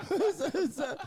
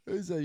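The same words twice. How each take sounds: First: Laughing. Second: Said in the usual way. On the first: Real, not acted. Laughing at the Wickles mayo idea.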